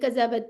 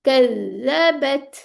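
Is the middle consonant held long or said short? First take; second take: short; long. First: The middle consonant is short and rushed. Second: The middle consonant is doubled and held long. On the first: The speaker calls it wrong. "इसको जल्दी नहीं पढ़ सकते हम, कज़्ज़बत ऐसे नहीं पढ़ेंगे" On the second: The speaker calls it right. "Double आवाज़ इसकी चलानी है"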